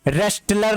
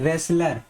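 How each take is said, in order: First: A t sound is pronounced after the s. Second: No t sound is pronounced after the s. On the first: The speaker calls it wrong. "नहीं यहाँ पे टी word भी silent होगा" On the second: The speaker calls it right. "इसको क्या पढ़ते हैं"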